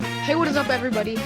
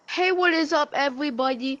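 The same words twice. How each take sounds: First: It is said in his normal voice. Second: It is said in an odd, unusual voice.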